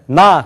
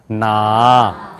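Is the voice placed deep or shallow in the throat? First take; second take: shallow; deep. First: The voice comes from high in the throat. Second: The voice resonates from deep down low. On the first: The speaker calls it wrong. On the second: The speaker calls it right.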